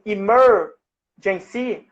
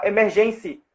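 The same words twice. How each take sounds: First: "emergency" slowly as i-MER-gen-cy, long English er; stress on ER. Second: "emergency" stressed like Portuguese "emergência", on GEN; misplaced stress. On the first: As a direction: punch and stretch the MER in "emergency". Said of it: "levando a sílaba tônica pro er". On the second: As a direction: say "emergency" as e-mer-GEN-cy, Brazilian style. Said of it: "a sílaba tônica fosse no". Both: Shown as a demonstration.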